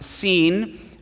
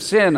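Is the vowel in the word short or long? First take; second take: long; short. First: The vowel is long, as in 'seen'. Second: The vowel is short, as in 'sin'. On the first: The speaker calls it right. "It's pronounced seen" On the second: The speaker calls it wrong. "I used to pronounce it the wilderness of sin"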